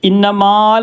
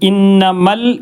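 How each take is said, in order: First: The vowel before the final L is long. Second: The vowel before the final L is short. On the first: The speaker calls it wrong. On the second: The speaker calls it right.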